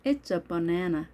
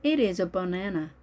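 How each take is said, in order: First: IT'S as one syllable; contracted form. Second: IT IS said as two words, uncontracted; careful model reading with separate "It is"; full form. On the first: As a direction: join "It's" to "a" as one unit. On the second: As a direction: say "It is" in full, slowly. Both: Shown as a demonstration.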